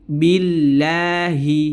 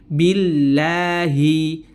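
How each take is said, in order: No difference in how they are said.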